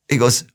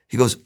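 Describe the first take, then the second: No difference in how they are said.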